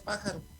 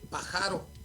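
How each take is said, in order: First: The stress is on the first syllable. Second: The stress is on the second syllable. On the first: This is the word written with its accent mark. "no dice pájaro" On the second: This is the word written without its accent mark. "dice pájaro ... la agravamos"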